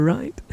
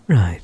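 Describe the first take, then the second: First: Right? asked with a sharp high rise; rising question. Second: Right. said low and final with a falling tune; falling answer. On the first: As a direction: toss out right? as a bright upward question. Asks gagged captive, answers herself. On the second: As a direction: settle it with a firm falling Right. Answers her own question for him. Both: Acted.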